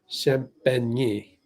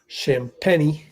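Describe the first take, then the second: First: The name is pronounced the French way. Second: The name is pronounced the American English way. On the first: The speaker calls it right. "It should be Champagne" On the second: The speaker calls it wrong. "But that's not how you're supposed to pronounce it"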